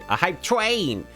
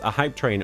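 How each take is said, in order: First: It is said in an imitated character's voice. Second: It is said in the speaker's normal voice.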